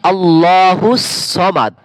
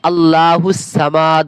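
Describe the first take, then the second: First: The first vowel of Samad is kept short. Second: The first vowel of Samad is drawn out long. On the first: The speaker calls it right. "এইভাবে করে শুদ্ধ উচ্চারণ" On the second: The speaker calls it wrong. "অনেকে তো আবার ভুল বলেন, আল্লাহু সামাদ বলে টান দেন"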